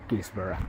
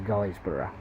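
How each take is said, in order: First: The first syllable rhymes with 'is'. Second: The first syllable rhymes with 'guys'. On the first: "it's possibly Gisborough" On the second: "It sounds like Guysborough to me"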